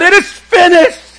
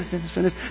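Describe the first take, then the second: First: The phrase is screamed out with full force. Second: The phrase is said in a calm, ordinary voice. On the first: It was the climax of his whole purpose. The speaker calls it right. "pulling up with everything that he's got? And just screaming out" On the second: It was a passing remark. The speaker calls it wrong. "don't picture it just like, well, he just said it's finished"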